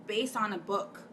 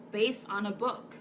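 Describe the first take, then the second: No difference in how they are said.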